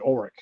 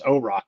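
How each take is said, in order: First: The name ends with a 'rick' sound. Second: The name ends with a 'rock' sound. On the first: The speaker calls it wrong. "you keep saying Oric" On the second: The speaker calls it right. "I continue to tell you it's O-Rock"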